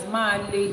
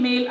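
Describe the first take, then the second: First: "máa le" in two syllables, MAH-leh; misread word. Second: Said in the usual way. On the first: Shown as a demonstration. Explaining the man's sign mistake, male misread as "máa le". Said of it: "He's reading male as". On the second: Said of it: "He doesn't know the difference".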